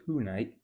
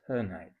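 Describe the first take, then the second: First: The first vowel is a full, clear vowel. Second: The first vowel is reduced to a schwa. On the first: The speaker calls it wrong. "it's not tonight" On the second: The speaker calls it right. "it's tonight. Schwa, little schwa"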